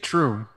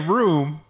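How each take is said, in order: First: The word starts with a TR sound. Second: The word starts with a plain R sound. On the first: "I say troom" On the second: "I don't say room"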